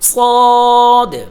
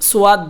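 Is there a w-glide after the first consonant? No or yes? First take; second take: no; yes. First: No w-glide follows the first consonant. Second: A w-glide follows the first consonant. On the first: The speaker calls it right. "সঠিক উচ্চারণ হলো সদ" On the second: The speaker calls it wrong. "সোয়াদ বলা যাবে না"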